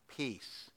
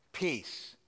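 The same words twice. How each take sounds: First: Much softer, low "Peace" almost breathed out; hushed command. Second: Soft, low, steady single word; calm quiet command. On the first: Pastor repeats Jesus hushing the wind and waves. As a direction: hush the storm gently. Jesus calms the storm, retold. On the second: Pastor voices Jesus quietly commanding the storm. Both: Retold or imitated.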